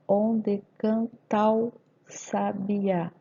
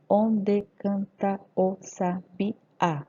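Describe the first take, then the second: First: "canta o" merged as can-tau; slow syllables, "ta o" run into one; poetic scansion. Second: "canta o" kept apart as can-ta-o; very slow, each syllable of "Onde canta o sabiá" separate; grammatical syllables. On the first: Teacher scanning the verse, slowly with "canta o" elided to cantau. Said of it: "Se eu fizer a escansão". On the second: Teacher dividing grammatical syllables, slow with "canta o" unlinked. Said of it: "Oito sílabas gramaticais". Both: Shown as a demonstration.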